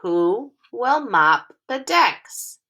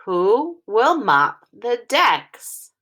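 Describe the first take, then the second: First: "Who will mop the decks?" slow and expressive, stress on "will", falling end; lively teacher read-aloud; with expression. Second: "Who will mop the decks?" slow, grouped in phrases, falling at the end; phrase it smoothly, not like a robot; teacher modelling phrasing; scooped into phrases. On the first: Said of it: "Read it with expression". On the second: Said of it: "We're scooping into phrases". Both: Shown as a demonstration.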